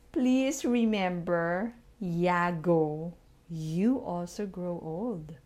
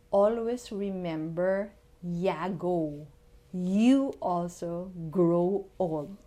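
First: Slow, spelled-out repeat; repeating for the tenth time. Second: Repeating for the tenth time. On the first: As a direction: say it slowly, word by word. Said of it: "Please repeat with me". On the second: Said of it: "Yan, pakiulit lang". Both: Shown as a demonstration.

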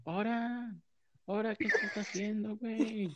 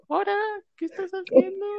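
First: Higher, lightly voiced kid's yell; mock child's yell. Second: Put-on high, loud little boy yelling; child's voice. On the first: Friend asks, he redoes his cousin's shout in a higher voice. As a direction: call it out like a tattling little cousin. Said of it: "cómo gritó". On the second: Cousin catches him kissing, shouted in a kid's voice. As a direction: squeal it like a small boy tattling. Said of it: "era una voz de niño".

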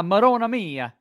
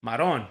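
First: Marona mia with every vowel said out; full Marona mia. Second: Maron with the final vowel dropped, Brooklyn Italian. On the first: Host reads the phrase, Marona mia fully pronounced. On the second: Brooklyn guest corrects the host, Maron said clipped. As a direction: clip it to Maron, no ending. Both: Shown as a demonstration. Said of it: "No, we say Maron".

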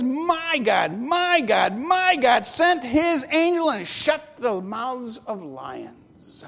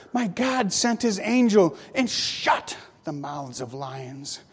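First: Slow, repeated "my God" with weight on each; emphatic testimony. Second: Said in the usual way. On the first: Shown as a demonstration. Daniel testifying to the king about his God, emphatic and slow. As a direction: stretch out "my God, my God" and lean on it. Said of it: "He says". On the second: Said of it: "first plain reading of the verse".

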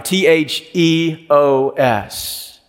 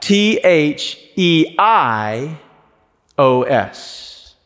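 First: "T H E O S" spelled slowly, letter by letter; spelling out. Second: "T H E I O S" spelled slowly, letter by letter, tailing off low; spelling out. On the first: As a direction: spell "T H E O S" slow and distinct. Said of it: "write down the word theos". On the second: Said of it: "you simply write it out". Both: Shown as a demonstration.

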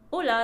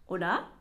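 First: Said in the usual way. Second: オラ？ like asking if someone is there; dipping then rising hola. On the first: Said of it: "って言いますよね". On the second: Shown as a demonstration. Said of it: "こう言います、私は".

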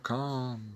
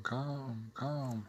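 First: Said in the usual way. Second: Much softer echoing repeats; hushed echo tail. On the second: Shown as a demonstration. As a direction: bounce the word back as a faint echo. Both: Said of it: "the echo repeats only the last word".

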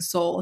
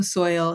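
First: "soul" with a plain long o, no oy glide; soil said like soul. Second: Said in the usual way. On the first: Shown as a demonstration. Poet shows how partner's soil sounds to her, "soul" with long o. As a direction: say "soul" for soil, one smooth vowel. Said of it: "it sounded like soul". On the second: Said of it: "he was actually saying soul".

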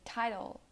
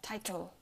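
First: "title" with its second T as D. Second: "title" with both T's crisp; hard T. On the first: Teacher showing American English, "title" with D sound. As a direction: tap "title" like "tidle". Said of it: "also pronounced like a D". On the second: Teacher showing the wrong way, "title" with hard T. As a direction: release the second T in "title". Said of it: "not title". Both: Shown as a demonstration.

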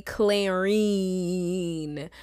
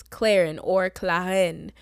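First: Clarine with a long, drawn-out "-een" ending; wrong name pronunciation. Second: Clarin with a short, light final syllable; own name pronunciation. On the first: Showing the name she never uses, Clarine said with a long "-een". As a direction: stretch the last syllable of Clarine into "eeen". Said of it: "introduced myself to be Clarine". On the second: Introducing herself by her real name, Clarin with a short ending. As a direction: say Clarin and Claren without any long "-een". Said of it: "I have always said". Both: Shown as a demonstration.

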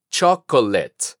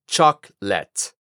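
First: "chocolate" as chok-o-LET, three syllables; mistaken Spanish-influenced pronunciation. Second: "chocolate" slowly as CHOK, pause, LET; corrected English pronunciation. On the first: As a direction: keep the second o in English "chocolate". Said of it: "caer en la costumbre de decir". ("chocolate" mal dicho en inglés: chok-o-let) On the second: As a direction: drop the second o in "chocolate", two low syllables. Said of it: "la segunda O la eliminamos". ("chocolate" en inglés, lento: chok, let) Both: Shown as a demonstration.

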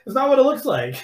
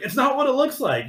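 First: High, guilty squeak; mock caught excuse. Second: High, hurried excuse; mock caught excuse. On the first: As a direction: plead it's not what it looks like. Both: Caught guy squeaking his denial to his stepmom.

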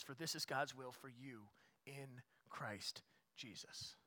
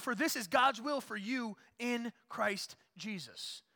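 First: Quiet and slow, letting the verse settle; soft slow scripture reading. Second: Loud, high and slow, each word weighed; slow climactic preaching. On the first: Pastor rereading the verse to the church, soft and slow. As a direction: read it gently as a closing thought. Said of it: "verse read again, softly". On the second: Pastor proclaiming God's will to the church, slow loud preaching. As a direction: land the verse like a verdict. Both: Acted.

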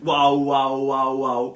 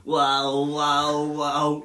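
First: Loud, sustained mimicked wails; drawn-out mock yelling; imitated screaming. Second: Loud, monotone mimicked robot; a hint of robotic monotone, drawn out; robotic doll voice. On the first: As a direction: imitate repeated screams at full volume. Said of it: "ela não tá a gritar isto". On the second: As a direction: imitate a toy doll echoing screams. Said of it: "ouves uma voz robótica do outro lado".

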